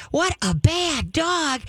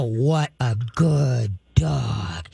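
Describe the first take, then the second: First: High, slow, sugary "What a bad dog"; happy tone, bad words. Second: Low, very slow, menacing "What a good dog"; stern tone, good words. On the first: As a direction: say "bad dog" like lavish praise. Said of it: "The tone of your voice is three quarters of your training". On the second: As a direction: growl the praise like a threat. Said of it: "you can come up and go". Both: Shown as a demonstration.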